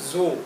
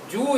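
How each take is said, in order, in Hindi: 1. यह शब्द ts ध्वनि से शुरू होता है। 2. यह शब्द भिनभिनाती हुई z ध्वनि से शुरू होता है। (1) "जर्मन में बोलते हैं" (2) "इंग्लिश में बोलते हैं"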